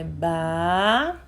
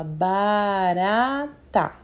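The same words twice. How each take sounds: First: "ba-ra-ta" with a break between each syllable; teacher sounds out "ba-ra-ta" syllable by syllable; split into syllables. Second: "barata" said slowly, every syllable clear; teacher models "barata" slowly and clearly; slow clear word. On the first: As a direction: chop "ba-ra-ta" into three beats. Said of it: "Vamos falar o nome novamente". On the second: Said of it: "a gente fala". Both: Shown as a demonstration.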